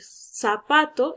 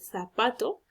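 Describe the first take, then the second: First: The word begins with an s sound. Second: The word begins with a th sound.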